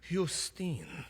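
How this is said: The name is said with a Greek pronunciation. "with a Greek pronunciation"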